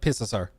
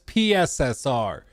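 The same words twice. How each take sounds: First: The letters are said fast, run together. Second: The letters are said slowly, one by one.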